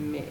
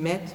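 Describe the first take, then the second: First: The word ends on the vowel, without t. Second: The word ends with a clear t sound. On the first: The speaker calls it right. "maar mee. Dus mee" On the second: The speaker calls it wrong. "dus niet met"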